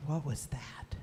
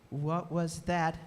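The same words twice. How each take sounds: First: Whispered, wary question; hushed whisper. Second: Low, slowly spaced words; slow wary question. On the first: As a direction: whisper it, listening for the noise. Effie hears mysterious booms. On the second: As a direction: ask it slowly and low, word by word. Repeats question slower, more voiced. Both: A narrator's reading.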